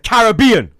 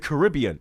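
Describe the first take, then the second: First: It is said the British way. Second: It is said the American way. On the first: The speaker calls it right. "It's the Caribbean" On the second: The speaker calls it wrong. "you pronounce everything wrong, like the Caribbean"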